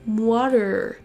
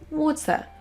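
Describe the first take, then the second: First: American accent, with a d-like t and final r. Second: British accent, ending in a schwa with no r. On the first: "le T qui se transforme en son D ... Suivi d'un R" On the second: "on entend un son schwa à la fin et pas du tout de R"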